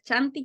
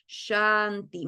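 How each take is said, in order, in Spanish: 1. La palabra empieza con un sonido ch seco y fuerte. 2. La palabra empieza con un sonido sh suave, como un siseo. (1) "por lo general los chilenos lo van a pronunciar" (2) "Mi lengua no toca los dientes ni el paladar"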